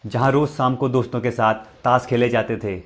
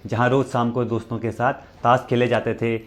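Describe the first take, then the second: No difference in how they are said.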